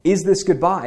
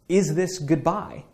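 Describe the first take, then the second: First: "Is this goodbye?" louder with "this" hit hard; louder, emphatic "Is this goodbye?" with weight on "this"; stress on this. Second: "Is this goodbye?" drawn out slowly, rising on "Is"; slow, musing read of "Is this goodbye?"; slow wistful question. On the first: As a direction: punch "this" in "Is this goodbye?". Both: Shown as a demonstration. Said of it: "Think about that subject line".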